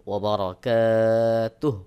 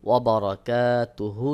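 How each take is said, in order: First: Slow "ওয়া বারাকাতুহু" with long kaa, ending "tuh"; waqf ending. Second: "ওয়া বারাকাতুহু" with final "hu" voiced; full ending. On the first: Teacher repeats the pause form, "ওয়া বারাকাতুহু" closed on h. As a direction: end "ওয়া বারাকাতুহু" on a breathed h, no u. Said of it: "যখন থেমে যাবেন". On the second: Teacher reads the written form, "ওয়া বারাকাতুহু" ending in hu. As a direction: sound out the last vowel of "ওয়া বারাকাতুহু". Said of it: "এখানে আপনাকে ওয়াকফ করতে হবে". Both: Shown as a demonstration.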